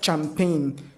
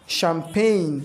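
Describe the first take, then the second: First: The word begins with a ch sound. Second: The word begins with a sh sound. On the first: The speaker calls it wrong. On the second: The speaker calls it right. "C H, but they give S H sound"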